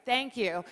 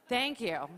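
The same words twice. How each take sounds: The two takes are said the same way.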